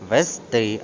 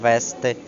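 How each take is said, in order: First: The stress is on the last syllable. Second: The stress is on the first syllable. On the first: The speaker calls it right. "мають наголос на останньому складі" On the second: The speaker calls it wrong. "а не"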